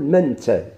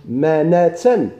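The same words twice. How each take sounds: First: Said in the usual way. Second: مناتا said very slowly with the vowel before ت held open; slow, open مناتا with the fatha drawn out; drawn-out form. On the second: Shown as a demonstration. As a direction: stretch مناتا syllable by syllable. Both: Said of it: "تقول منتا".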